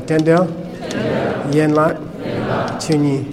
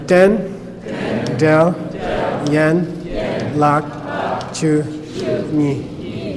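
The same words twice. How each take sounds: First: Den del, yen lak, chu ni in two-syllable groups; repeat in pairs. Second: Den, del, yen, lak, chu, ni syllable by syllable; a pause after each of den, del, yen, lak, chu, ni; real slow. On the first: Teacher repeats Tibetan name for class, syllables in pairs. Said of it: "One more time". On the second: Teacher leads class through Tibetan syllables, real slow. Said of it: "We'll go real slow". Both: Shown as a demonstration.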